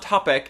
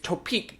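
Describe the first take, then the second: First: The pitch stays level or falls at the end. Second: The pitch rises at the end of the word. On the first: The speaker calls it wrong. "not topic" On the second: The speaker calls it right. "You gotta come up at the end"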